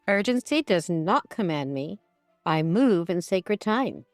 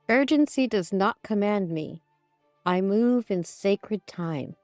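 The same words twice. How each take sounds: First: It is said in a firm, commanding tone. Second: It is said in a soft, plain tone.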